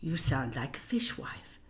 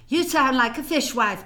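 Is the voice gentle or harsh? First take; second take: gentle; harsh. First: The voice is soft, warm and gentle. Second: The voice is loud, tight and harsh. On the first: The speaker calls it right. "My mother had the most gorgeous voice and the gentlest speech" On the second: The speaker calls it wrong. "No, she didn't say it like that"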